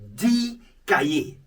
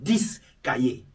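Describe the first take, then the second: First: The final x of dix is silent. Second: The final x of dix is pronounced. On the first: The speaker calls it right. "that X of the ten of the this will be silent" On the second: The speaker calls it wrong. "not this kaye"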